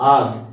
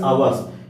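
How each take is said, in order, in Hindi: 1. यह शब्द एक अक्षर में बोला जाता है, 'ars'। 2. यह शब्द दो अक्षरों में बोला जाता है, 'aw-ers'। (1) "इसको आर्स भी प्रोनाउंस कर सकते हैं" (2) "आवर्स भी प्रोनाउंस कर सकते हैं"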